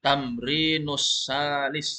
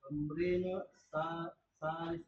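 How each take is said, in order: First: "Tamrinus salis" run together, slow, the s of "Tamrinus" linked straight into "salis"; teacher joins the words slowly; joined pronunciation. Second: "Tamrinu sa-" broken off before "salis"; student reading hesitantly in pieces; split pronunciation. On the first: Shown as a demonstration. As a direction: say "Tamrinus salis" as one slow unbroken phrase. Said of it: "Jangan dipisah, langsung lanjut". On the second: Real, not acted. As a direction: pause and split the words apart. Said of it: "Jangan dipisah".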